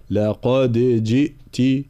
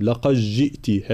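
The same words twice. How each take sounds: First: لقد جئت slowly with an echoing qalqala on the d; dal shown clearly. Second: لقد جئت with the d swallowed into the j; wrong merged dal. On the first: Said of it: "بيان حرف الدال". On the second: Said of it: "من يقرأها بالإدغام". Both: Shown as a demonstration.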